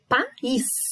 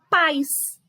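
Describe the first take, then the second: First: The vowels a and i form two syllables. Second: The vowels a and i form one syllable. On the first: The speaker calls it right. "Duas sílabas é um hiato" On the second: The speaker calls it wrong. "senão eu vou falar pais. E não é"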